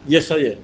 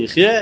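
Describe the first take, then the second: First: It is pronounced yechayeh, meaning will give life. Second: It is pronounced yichyeh, meaning will live. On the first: The righteous one gives life to others through his faith. The speaker calls it right. "אלא יחיה" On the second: The righteous one lives by his own faith. The speaker calls it wrong. "אל תקרא יחיה"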